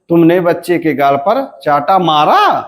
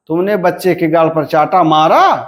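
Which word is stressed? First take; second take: मारा; मारा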